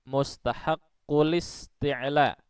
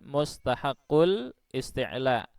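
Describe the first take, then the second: First: The words link with no glottal stop between. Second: A glottal stop separates the two words. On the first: The speaker calls it right. "Ingat, ... Karena hamzah dari kata isti'la ini adalah hamzah wasal" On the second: The speaker calls it wrong.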